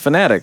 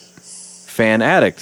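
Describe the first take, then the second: First: It is said as one word, fanatic. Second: It is said as two words, fan addict. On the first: The speaker calls it right. "No, it's just Fanatic" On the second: The speaker calls it wrong. "everyone pronounces it phonetically"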